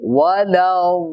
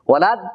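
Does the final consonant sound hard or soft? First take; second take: soft; hard. First: The final consonant is soft and drawn out. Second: The final consonant is hard and abrupt. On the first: The speaker calls it right. "লম্বা ভাবে আওয়াজটা হবে" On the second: The speaker calls it wrong. "এরকম হবে না"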